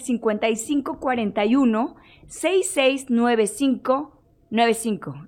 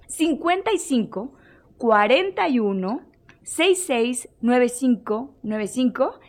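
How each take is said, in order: First: The number is said quickly. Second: The number is said slowly.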